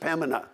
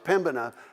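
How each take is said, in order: First: The B sound in the middle is dropped. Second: The B sound in the middle is pronounced. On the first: The speaker calls it right. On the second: The speaker calls it wrong.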